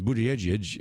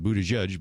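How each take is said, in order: First: Buttigieg ending in edge-edge, BOOT-edge-edge; his own pronunciation. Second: Buttigieg ending in judge, BUDDHA-judge; husband's pronunciation. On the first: Host showing how the candidate says his surname, Buttigieg pronounced BOOT-edge-edge. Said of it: "He says Buttigieg". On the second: Host showing how the husband says the surname, Buttigieg pronounced BUDDHA-judge. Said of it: "calls it Buttigieg". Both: Shown as a demonstration.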